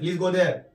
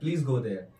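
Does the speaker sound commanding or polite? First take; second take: commanding; polite. First: It is said in a harsh, threatening tone. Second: It is said in a soft, gentle tone. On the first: It is an order, not a request. The speaker calls it wrong. "ये तो command हो जाएगा, डराते हुए आप बोल रहे हैं" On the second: It is a polite request. The speaker calls it right. "ऐसा लगना चाहिए आप रिक्वेस्ट कर रहे हैं"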